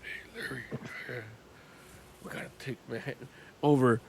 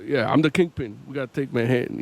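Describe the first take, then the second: First: Very soft, low gravelly mumble; barely audible rumble from deep down; whispering Kingpin. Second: Lightly voiced, lower-pitched mobster boss; a hint of a low Kingpin, at talking volume. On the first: Retold or imitated. Showing how quietly Kingpin talks, hushed growl. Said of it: "for perspective, it's like". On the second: Mimicking Kingpin for comparison, slightly lowered voice. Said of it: "it's an artistic choice".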